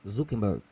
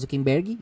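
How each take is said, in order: First: The name ends on a consonant, no vowel. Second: The name ends with an added ee vowel. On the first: "Mas é Zuckerberg" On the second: "igual a gente fala, parece que tem Y no final"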